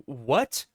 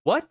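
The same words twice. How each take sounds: First: Low, stunned question rising at the end; stunned disbelief, kept low; shocked. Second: Higher, short rising yelp of disbelief; stunned question shooting upward; shocked. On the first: Captain Adam reacting to Superman's new form, shocked. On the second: Captain Adam asking in disbelief a second time, shocked. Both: A narrator's reading. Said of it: "Captain Adam is shocked".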